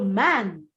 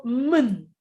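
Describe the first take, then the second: First: "man" with a full open a, the wrong way; "man" said fully, as it should not be. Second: Slow, "mun" with a weak unstressed vowel; reduced mun. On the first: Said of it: "you don't go man". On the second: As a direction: soften "mun" into a short schwa. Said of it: "you go mun". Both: Shown as a demonstration.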